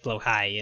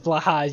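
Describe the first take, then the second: First: The name is said with Swedish-style vowels. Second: The name is said with English-style vowels. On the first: "I think it's how you pronounce it in Swedish" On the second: "how everybody says"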